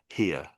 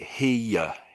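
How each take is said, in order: First: Said smoothly, with no y-like glide inside. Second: Said with a y-like glide in the middle. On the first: It is said as part of a longer sentence. The speaker calls it right. "the way that we're saying it now" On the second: It is said as if the word stood alone. The speaker calls it wrong. "Like there was almost like a Y in the middle"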